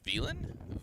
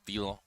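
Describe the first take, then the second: First: The name is said with an English accent. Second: The name is said with a French accent. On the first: "it's probably just Villon?" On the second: "I don't know why I'm saying it in a French accent"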